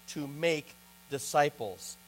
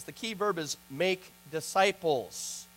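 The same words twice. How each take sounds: First: Slow, quiet push on "make disciples"; measured emphasis on "make disciples"; stress on make disciples. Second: Slow, quiet weight on "make disciples"; measured preacher's emphasis on "make disciples"; stress on make disciples. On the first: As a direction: dwell slowly on "make". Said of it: "Make disciples is the emphasis". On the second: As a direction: lean slowly into "make". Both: Shown as a demonstration.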